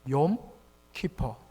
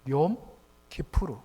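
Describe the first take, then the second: First: It is said with an English pronunciation, ending 'per'. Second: It is said with a Hebrew pronunciation, ending 'poor'. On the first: "영어로 발음하면" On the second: "히브리어로"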